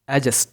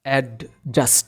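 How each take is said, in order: First: The d sound is left silent. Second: The d sound is clearly pronounced. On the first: The speaker calls it right. "এখানে ডি silent থাকবে" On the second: The speaker calls it wrong. "এটাকে বলি আমরা অ্যাডজাস্ট, কিন্তু এটা অ্যাডজাস্ট হবে না"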